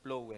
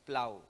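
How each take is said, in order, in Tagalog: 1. Ang patinig ay tunog 'oh'. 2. Ang patinig ay tunog 'ow'. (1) "akala ko bigkas niyan plow eh" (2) "binibigkas daw po yung O na as A"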